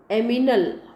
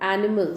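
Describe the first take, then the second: First: The m sound comes before the n sound. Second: The n sound comes before the m sound. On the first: The speaker calls it wrong. "a child may say aminal" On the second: The speaker calls it right. "instead of animal"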